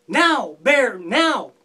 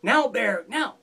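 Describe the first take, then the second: First: Loud shouted call to Bear; holler. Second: A lighter, half-voiced echo of the call; imagined call. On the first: Acted. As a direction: yell it out across the ice. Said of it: "I'm gonna holler out". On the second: A narrator's reading. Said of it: "waiting for Fox to call out to him".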